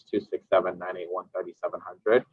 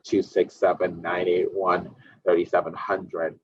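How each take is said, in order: First: The number is read at a normal pace. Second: The number is read at a slow pace.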